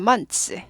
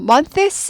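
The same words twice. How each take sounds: First: The th sound is barely pronounced. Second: The th sound is fully pronounced. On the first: The speaker calls it right. "그냥 months" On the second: The speaker calls it wrong. "months 하지 않고"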